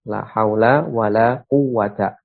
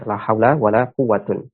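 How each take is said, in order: First: The last word ends in a plain short a. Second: The last word ends in a short u plus n. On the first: "bisa kita baca dengan mabni pula" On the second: "kita baca dengan uh, rofa"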